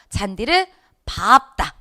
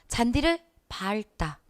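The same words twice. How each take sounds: First: The verb is said with a P sound. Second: The verb is said with an L sound. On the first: The speaker calls it right. "이래줘야 된대잖아요" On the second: The speaker calls it wrong. "이거 같잖아요"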